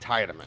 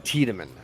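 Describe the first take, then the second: First: The name is said with an English pronunciation. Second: The name is said with a German pronunciation. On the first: "I'm going off of the off the English dubbed version. It's pronounced Tiedemann" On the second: "I'll go based off of the German pronunciation"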